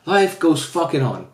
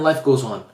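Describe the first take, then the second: First: "Life goes fucking on" slowed right down, each word landed; a slow, heavy insistence that life continues; slow emphatic repeat. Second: Said in the usual way. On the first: Shown as a demonstration. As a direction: drag out "fucking" and lean on it like a resigned vow. Repeats phrase, second time emphatic.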